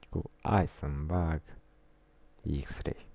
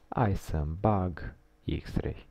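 First: It is said in a suggestive, knowing tone. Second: It is said in a plain, ordinary tone.

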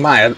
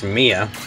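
First: The name is said with two syllables, 'MY-uh'. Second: The name is said as 'MEE-uh'. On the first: The speaker calls it wrong. "that's not the correct way to pronounce that name" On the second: The speaker calls it right. "it's Mia"

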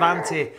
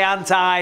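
First: The word is said the non-American way. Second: The word is said the American way. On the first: "instead of anti" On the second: "I live in America, I say anti"

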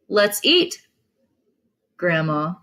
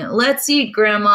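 First: There is a pause before grandma. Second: It is said without a pause before grandma.

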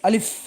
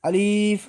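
First: The vowel is kept short, not drawn out. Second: The vowel is drawn out long. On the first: The speaker calls it right. "এই হরফটির মধ্যে কোনো টান হবে না, উচ্চারণ হবে আলিফ" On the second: The speaker calls it wrong. "যদি আমরা টেনে পড়ি তাহলে এখানে ভুল হবে। আমরা অনেকেই আলিফ বলি, এটা আসলে ভুল উচ্চারণ"

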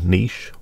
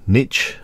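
First: It is said with a non-American pronunciation. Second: It is said with an American pronunciation.

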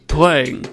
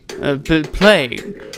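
First: The word is pronounced in the standard way. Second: The word is pronounced in a mangled way. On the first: This is how it should be said. The speaker calls it right. "that's the right way to say playing" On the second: This is how the other person said it. The speaker calls it wrong. "And what did I say?"

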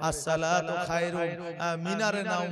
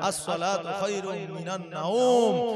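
First: The phrase ends 'minar nam', with a short vowel. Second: The phrase ends 'minan nawm', with a diphthong. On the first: The speaker calls it wrong. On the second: The speaker calls it right.

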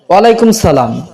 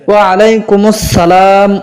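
First: It is said clipped, as walaikum salam. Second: It is said fully, as wa alaikumus salam. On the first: The speaker calls it wrong. "অনেকে উত্তরটা সঠিকভাবে দিতে পারে না" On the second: The speaker calls it right. "তারা এইভাবে নেবেন"

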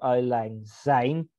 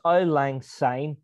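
First: The last word begins with a Z sound. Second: The last word begins with an S sound. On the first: The speaker calls it wrong. "not Auld Lang Syne, like Zine, like a Z" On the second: The speaker calls it right. "It's Auld Lang Syne"

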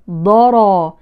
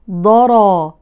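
Both takes have the same delivery.

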